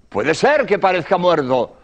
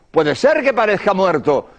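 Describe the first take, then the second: No difference in how they are said.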